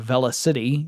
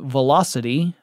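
First: It is said as two parts, velo city. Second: It is said as the ordinary word velocity.

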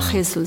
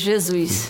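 First: The name has a Spanish pronunciation. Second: The name has a Portuguese pronunciation. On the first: The speaker calls it wrong. "not Jesus" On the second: The speaker calls it right. "It's not Spanish, so it's Jesus"

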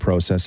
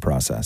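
First: It is said with a Canadian pronunciation. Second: It is said with an American pronunciation. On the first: "in Canada, we tend to say process" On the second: "In America, they say process"

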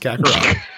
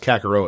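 First: The last syllable sounds like 'rot', with t. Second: The last syllable sounds like 'row', no t. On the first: The speaker calls it right. "but it is not. It is Kakarot" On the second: The speaker calls it wrong. "wants to pronounce it with a row sound. So I thought it was Kakarot at first"

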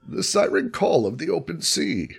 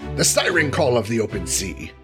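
First: It is read in a put-on character voice. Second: It is read in the reader's ordinary voice. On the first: "in a Bane voice for Charles" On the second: "I'm going to veto Bane"

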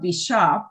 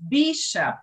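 First: The stress is on the second syllable. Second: The stress is on the first syllable. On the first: The speaker calls it wrong. "second syllable, shop" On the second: The speaker calls it right. "that was bishop"

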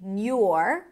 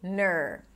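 First: The syllable is said with a 'y' glide. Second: The syllable is said with a plain 'er' vowel. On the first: "nur with a y sound" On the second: "if you want to make it super easy, just say ner"

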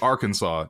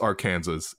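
First: The word's ending does not sound like Kansas. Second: The word's ending sounds like the state Kansas. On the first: The speaker calls it right. "It's pronounced Arkansas" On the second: The speaker calls it wrong. "it's not pronounced Arkansas"

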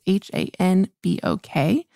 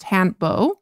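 First: The word ends with a clearly sounded k. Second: The word ends without a clearly sounded k. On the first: The speaker calls it wrong. "I usually say hanbok because it's H-A-N-B-O-K" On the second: The speaker calls it right. "And so it's pronounced hanbo"

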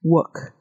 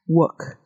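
First: The R is dropped, British RP style. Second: The same.

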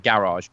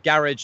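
First: It is said with an American accent. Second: It is said with a British accent.

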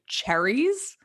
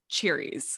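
First: The first vowel sounds like in 'chair'. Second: The first vowel sounds like in 'cheer'. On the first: This is the usual way people say it. "most people say cherries" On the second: This is an unusual personal habit. "like Cheerios"

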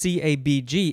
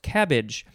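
First: It is said as four separate letters. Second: It is said as one word, like cabbage. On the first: The speaker calls it wrong. "it's not pronounced CABG" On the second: The speaker calls it right. "it's actually pronounced cabbage"

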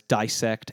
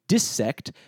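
First: The first syllable sounds like 'die'. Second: The first syllable sounds like 'dis'. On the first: "most regions in America pronounce it as dissect" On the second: "Maybe there are parts of the English-speaking world that say dissect"

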